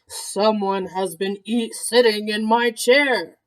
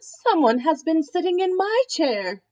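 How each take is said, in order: First: It is said in a great big voice. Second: It is said in a middle-sized voice.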